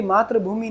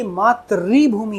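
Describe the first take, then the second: First: मातृभूमि with "tra", not "tri"; the mistaken "maatra-bhoomi" reading of मातृभूमि; wrong pronunciation. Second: Slow teacher's demo, "maa-tri" in मातृभूमि; correct pronunciation. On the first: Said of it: "जबकि मातृभूमि नहीं है". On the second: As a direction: say मातृभूमि slowly as "maat-rii-bhoomi". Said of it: "ये मातृभूमि है". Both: Shown as a demonstration.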